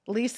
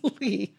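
First: The word ends with an audible s sound. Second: The word ends without any s sound. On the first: It names a rental contract. The speaker calls it wrong. "Lis is what you sign when you rent an apartment" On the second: It is part of the flower symbol's name. The speaker calls it right. "This is lis"

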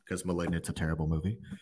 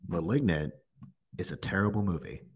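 First: It is said at normal, quieter volume. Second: It is said loudly.

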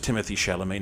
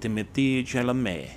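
First: The name is said with a plain English accent. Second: The name is said with a French accent.

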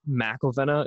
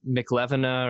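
First: The name begins with 'Mac-el'. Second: The name begins with 'Mac-lev'. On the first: The speaker calls it right. "It's like McElvena" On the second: The speaker calls it wrong. "Most people are like McLevena"

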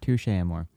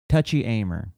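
First: The name is pronounced in a French-like way. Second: The name is pronounced in an anglicized way. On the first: The speaker calls it right. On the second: The speaker calls it wrong.

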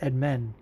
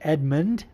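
First: The name ends without a d sound. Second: The name ends with a d sound. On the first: "Edmund Shabazian is Edmen" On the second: "there's a D on the end"

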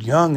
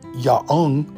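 First: No extra vowel follows the y sound. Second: An extra ah vowel follows the y sound. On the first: The speaker calls it right. "The word young" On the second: The speaker calls it wrong. "Y doesn't include the AH sound after it"

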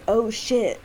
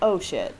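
First: It sounds tense and alarmed, genuinely frightened. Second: It sounds light and casual, mildly surprised. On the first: Something bad is happening to him. "like, something's happening?" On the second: He just forgot something at his car. "like, oh, I forgot something at my car?"

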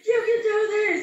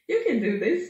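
First: It is said loudly, like yelling. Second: It is said calmly and quietly.

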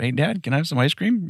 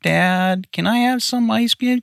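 First: It is said in a plain tone. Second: It is said in a whiny tone.

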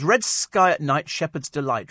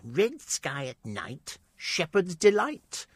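First: It is read in a plain, ordinary voice. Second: It is read in a butch, nasal voice.

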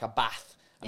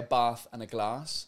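First: It is said in a Manchester accent. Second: It is said in the speaker's own accent.

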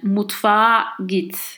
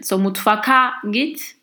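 First: The middle consonant is a soft gliding sound. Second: The middle consonant is a hard k sound. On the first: The speaker calls it right. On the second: The speaker calls it wrong.

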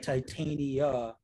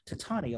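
First: The middle syllable sounds like the one in titanium. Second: The middle syllable sounds like the one in Britannica. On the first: The speaker calls it right. "it's more like titanium, right?" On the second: The speaker calls it wrong. "in my brain, I just see like Titania, like Britannica"

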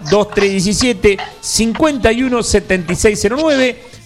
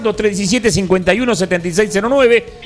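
First: The number is read slowly and deliberately. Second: The number is read at normal, quicker pace.

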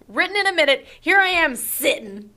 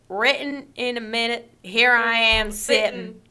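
First: It is read in a plain accent. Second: It is read in a Southern accent.

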